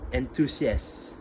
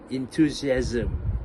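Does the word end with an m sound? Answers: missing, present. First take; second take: missing; present. First: The word ends without any m sound. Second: The word ends with a clear m sound. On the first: The speaker calls it wrong. "actually did only say enthusiast" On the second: The speaker calls it right. "the correct proper pronunciation is supposed to be enthusiasm"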